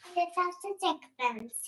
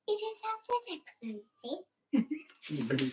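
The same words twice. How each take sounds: First: It is said loudly. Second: It is said quietly.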